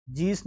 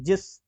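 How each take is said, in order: First: जीस as "jees"; wrong long ee. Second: जिस as a quick "jis"; short i. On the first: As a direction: stretch the vowel in जीस. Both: Shown as a demonstration. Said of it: "जीस नहीं".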